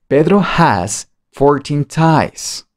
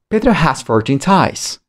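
First: The sentence is said at the slowest pace. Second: The sentence is said at the fastest pace. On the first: "Cada vez más rápido" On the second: "Más rápido"

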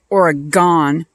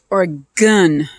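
First: The final syllable sounds like 'gone'. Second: The final syllable sounds like 'gun'. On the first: The speaker calls it wrong. "I don't know why idiots pronounce it Oregon" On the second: The speaker calls it right. "It's Oregon"

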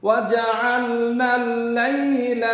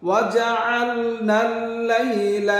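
Both takes have the same delivery.

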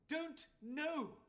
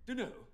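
First: Each word is clearly and separately enunciated. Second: The words are slurred together into one. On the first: The speaker calls it right. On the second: The speaker calls it wrong.

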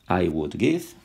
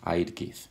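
First: The two words are said in full. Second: The two words are said as one contracted syllable. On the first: "es lo mismo I would" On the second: "que I'd give"

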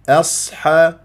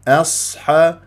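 The two takes are said the same way.

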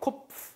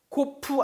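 First: The word ends with teeth-on-lip f sound. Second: The word ends without the f sound. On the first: The speaker calls it right. "F는 어떻게 발음하냐면 위에 이가 윗니가 아래 입술에 붙어서 세야 됩니다" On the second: The speaker calls it wrong. "코프 아니에요"

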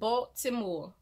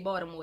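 First: Every syllable of the name is said clearly. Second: The name is said quickly with syllables run together. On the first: The name is said so outsiders recognize it. "I'm putting emphasis on Baltimore" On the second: The name is said the way locals say it. "we say Baltimore down here. We don't put emphasis on Baltimore"

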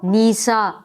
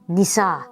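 First: The i vowel is drawn out long. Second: The i vowel is kept short. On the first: The speaker calls it wrong. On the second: The speaker calls it right.

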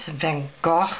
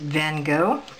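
First: The name ends with a gurgling throaty sound. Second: The name ends with no final consonant sound. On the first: "kind of a gurgly sound" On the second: "I generally make the GH silent"

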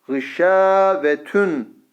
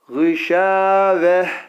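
First: The word ends with a t sound plus -un. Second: The word ends with a soft h sound. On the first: The reciter continues without stopping. "Ama geçersek eğer gışavetün diye geçeriz" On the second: The reciter stops at this word. "gışaveh şeklinde okuyacağız duraklarda"

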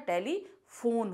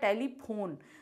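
First: It is said with an f sound. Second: It is said with an aspirated p sound. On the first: "लेकिन क्या होता है" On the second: "क्या लिखा है"

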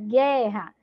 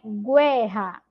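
First: No 'w' sound follows the g. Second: A 'w' sound follows the g. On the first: The speaker calls it right. "É guerra. Então, a letra U não vai ser pronunciada" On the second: The speaker calls it wrong. "não é guerra"

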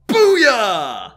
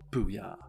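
First: It is shouted loudly and energetically. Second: It is muttered quietly under the breath.

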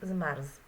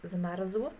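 First: The final ł sound is dropped. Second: The final ł sound is pronounced. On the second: "zamiast powiedzieć"

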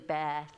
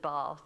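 First: The word is said with an American accent. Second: The word is said with a non-American accent. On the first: "I've got to learn to talk American... when I try to say bath" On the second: "instead of bath"

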